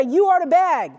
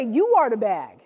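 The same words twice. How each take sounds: First: Mean every word; say it like you mean it. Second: Said in the usual way. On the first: Shown as a demonstration. Coach showing players how to say it with belief. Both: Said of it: "But you have to say it like you mean".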